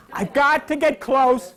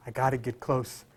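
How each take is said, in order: First: Said aloud. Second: Said inwardly. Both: Shown as a demonstration. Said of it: "Say it".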